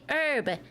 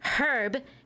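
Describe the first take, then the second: First: The word begins without an H sound. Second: The word begins with an H sound. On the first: The speaker calls it right. "because there's the H is silent" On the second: The speaker calls it wrong. "You pronounce the H when the H isn't pronounced"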